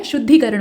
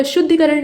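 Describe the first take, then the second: First: शुद्धिकरण with long ee after ddh. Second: शुद्धिकरण with short i after ddh; short middle vowel in शुद्धिकरण; wrong short i. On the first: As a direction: say शुद्धिकरण as shuddhee-karan. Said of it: "शुद्धिकरण होता है". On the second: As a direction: say शुद्धिकरण as shuddhi-karan. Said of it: "शुद्धिकरण नहीं होता है". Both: Shown as a demonstration.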